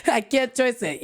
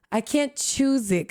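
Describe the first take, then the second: First: "choice" said in place of "choose"; mispronounced "choice". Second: Slow, careful "choose" with a z sound. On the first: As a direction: repeat the learner's slip, saying "choice" for "choose". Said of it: "And [name]'s like, "No, I can't choose it". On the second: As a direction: stretch out "choose" as a gentle correction. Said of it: "And [name]'s like, "No". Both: Retold or imitated.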